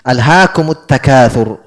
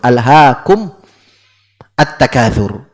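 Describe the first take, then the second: First: The m of alhaakum takes a u vowel. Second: The m of alhaakum ends without a vowel. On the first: "Tapi kalau di mushaf di dhammah. ... Itu cara bacanya" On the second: "itu mimnya asalnya disukun"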